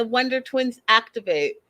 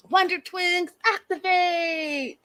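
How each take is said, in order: First: Said in the usual way. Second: High, slow heroic catchphrase; cartoon hero call. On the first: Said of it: "Where is that from". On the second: Shown as a demonstration. Vlogger recalling a cartoon line, drawn out like a hero. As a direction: call it out like a superhero. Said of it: "Where did I hear that?".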